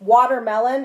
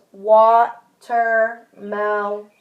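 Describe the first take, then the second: First: Said in the usual way. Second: Watermelon stretched very slowly syllable by syllable; slowly segmented. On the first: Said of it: "maybe the word is". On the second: Shown as a demonstration. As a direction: pull watermelon apart, slow and drawn out. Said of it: "They might go like this".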